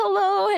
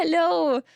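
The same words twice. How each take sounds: First: High sing-song hello. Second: Said in the usual way. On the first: Real, not acted. Sing-song greeting to a viewer.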